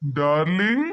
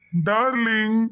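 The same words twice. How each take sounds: First: DARLING starting low with a long rising glide; coaxing call. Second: "darling" level, at everyday pitch; repeated call. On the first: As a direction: call "darling" as a question, sliding up from low. Calling someone who does not answer. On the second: Man calling his darling a second time, even-pitched call. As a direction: call "darling" evenly, without the questioning climb. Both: Acted.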